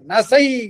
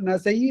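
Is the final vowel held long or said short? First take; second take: long; short. First: The final ai vowel is pressed and held long. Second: The final ai vowel is short and plain. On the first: The speaker calls it right. "அந்த ஐய அழுத்தி சொல்வதற்காக" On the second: The speaker calls it wrong. "எல்லாரும் படிக்கின்ற போது நசை நசைன்னு படிக்கிறாங்க. அது அப்படி படிக்க கூடாது"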